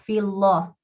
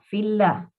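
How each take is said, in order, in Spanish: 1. La L en Allah es pesada y fuerte. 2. La L en Allah es ligera y suave. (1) "no fillah" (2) "lo correcto es decirlo fillah"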